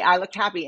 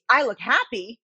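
First: It is said in a neutral tone. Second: It is said angrily, confrontationally.

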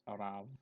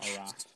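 First: The word ends with a v sound. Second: The word ends with an f sound. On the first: The speaker calls it right. "it's Arav" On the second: The speaker calls it wrong. "It's not Araf"

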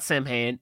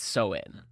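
First: It is read the way it is spelled. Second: It is said the native Irish way. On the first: The speaker calls it wrong. "it is not Samhain" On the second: The speaker calls it right. "it's Samhain"

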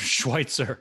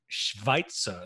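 First: The name is said with a W sound. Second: The name is said with a V sound.

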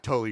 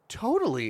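First: The word is said in a sarcastic tone. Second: The word is said in a sincere, eager tone. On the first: The speaker does not really agree. "you read it like, yeah, totally. Your guy's going to be sarcastic" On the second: The speaker genuinely agrees. "that's not the tone I wanted"

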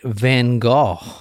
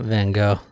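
First: The name has its European pronunciation. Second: The name has a non-European pronunciation. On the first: The speaker calls it right. "the Europeans say Van Gogh" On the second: The speaker calls it wrong. "not Van Gogh"

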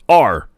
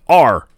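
No difference in how they are said.

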